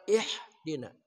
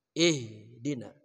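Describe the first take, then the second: First: "ihdina" with a light front h, not from the throat; wrong light ha. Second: "Ihdina" with the ha breathed from deep in the throat; correct throat ha. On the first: Teacher shows the wrong, light ha. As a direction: say "ihdina" with an ordinary h. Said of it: "Bukan ihdina". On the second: Teacher shows the right ha from the throat. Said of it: "Ha itu munculnya dari pangkal tenggorokan kita". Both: Shown as a demonstration.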